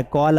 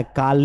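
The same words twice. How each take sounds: First: कॉल rounded, as "kawl"; correct call. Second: कॉल said as "kaal" with open aa; wrong call. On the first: (कॉल में गोल "ऑ" की आवाज़) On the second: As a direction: give कॉल a long "aa". (कॉल को "काल" बोलना) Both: Shown as a demonstration. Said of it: "कॉल नहीं आ रहा है".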